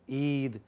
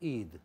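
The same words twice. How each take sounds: First: The vowel is drawn out long. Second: The vowel is kept short. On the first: The speaker calls it wrong. "Not so long in our language. I am under the influence of English. I am making it Eid" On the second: The speaker calls it right. "It is not Eid. It is Eid"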